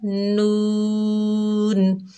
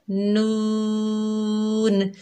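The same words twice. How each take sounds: First: नून drawn long and clean, not nasal; नून the right way, no nasal sound; correct pronunciation. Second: नून drawn out and nasal, the wrong way; नून with nasal voice, incorrect. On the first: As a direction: stretch नून clearly, five alif length. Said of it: "तो हमने कैसे पढ़ना है?". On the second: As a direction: say नून into the nose as not to read it. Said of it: "नून नहीं पढ़ना". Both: Shown as a demonstration.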